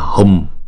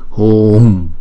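First: The vowel is cut short quickly. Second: The vowel is held for two beats. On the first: The speaker calls it wrong. "Không phải là hùm" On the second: The speaker calls it right. "kéo dài hai nhịp rồi mới đóng chữ u đó lại"

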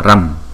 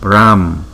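First: The vowel is said short. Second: The vowel is drawn out long. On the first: "Chữ này đọc là ram" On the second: "Kéo dài một chút"

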